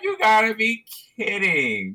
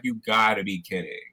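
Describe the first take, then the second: First: High-pitched mock Australian exclamation; Australian accent. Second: Lower-pitched retold Australian line; Australian accent. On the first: Manager reacting to the paper towel fight, high mock Australian accent. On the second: Manager coming out to the fighting shoppers, lower mock Australian accent. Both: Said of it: "Is that your Australian accent?".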